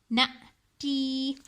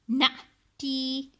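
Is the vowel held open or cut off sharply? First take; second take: cut off; cut off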